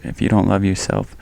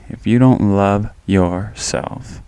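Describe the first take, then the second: First: Said in the usual way. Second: Slow, leaning hard on "don't"; slowed down, "don't" pressed home; stress on don't. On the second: Shown as a demonstration. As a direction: stretch out "don't" and make it count.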